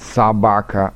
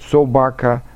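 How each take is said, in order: First: The first vowel sounds like an a. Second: The first vowel is a clear, distinct o. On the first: This is the Moscow-region way of speaking. "акают" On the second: This is the Upper Volga way of speaking. "говорят «о» более отчетливо"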